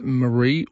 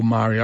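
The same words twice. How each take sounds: First: MARIE as muh-REE, stress on the end; Marie, second syllable stressed; Marie, stressed late. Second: MARI as MAH-ree, stress on the front; Mari, first syllable stressed; Mari, stressed early. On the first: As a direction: say Marie with a weak first vowel, muh-REE. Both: Shown as a demonstration. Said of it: "Is it Marie or Mari?".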